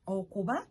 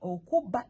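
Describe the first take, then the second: First: Okuba with a light B, nearly v; okuba, unemphasized b; single soft B. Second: Okuba with a hard, held B; okuba, strong stop on the b; emphasized double B. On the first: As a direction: let the B in okuba flow softly. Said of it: "Only one B". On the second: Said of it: "these are two different words". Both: Shown as a demonstration.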